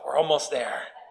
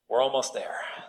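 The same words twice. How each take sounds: First: It is said warmly with a big smile. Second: It is said tensely through clenched teeth. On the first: The speaker is relaxed and good-humored. "I say it with a big smile, not through gritted teeth" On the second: The speaker is irritated and impatient. "through gritted teeth"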